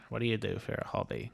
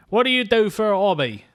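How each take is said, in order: First: Quiet Tom Conti voice. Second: Loud mock question. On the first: Retold or imitated. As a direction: murmur it like Conti. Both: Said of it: "'Cause he talks quiet".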